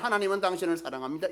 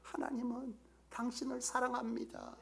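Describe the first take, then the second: First: It is said plainly, without warmth. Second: It is said warmly, with felt affection. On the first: The words are only recited. The speaker calls it wrong. "그냥 한 게 아니에요. ... 이게 아니라" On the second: The speaker truly cares for the listener. The speaker calls it right. "이렇게 하는 이 말 한마디에 사랑이 느껴져서"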